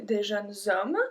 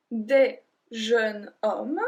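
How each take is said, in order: First: "des jeunes hommes" linked with a z sound before hommes; liaison. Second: Said in the usual way. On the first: Shown as a demonstration. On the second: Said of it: "we can even say ... link".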